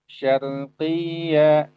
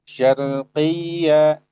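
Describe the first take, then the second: The two takes are said the same way.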